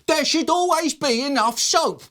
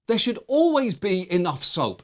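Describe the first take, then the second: First: It is shrieked in a loud, high voice. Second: It is said at a normal, calm loudness.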